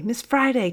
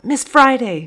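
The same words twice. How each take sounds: First: Calling again. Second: A much higher, louder call across the room; screaming out. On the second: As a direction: call her over at full voice. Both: A narrator's reading. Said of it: "screamed out".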